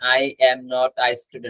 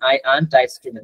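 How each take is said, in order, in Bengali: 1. "am not" দুটি পূর্ণ শব্দ হিসেবে বলা হয়। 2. "am not" এক সিলেবলে সংক্ষেপিত হয়। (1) "এম নট" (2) "সংক্ষেপে যদি এটা পড়তে চান"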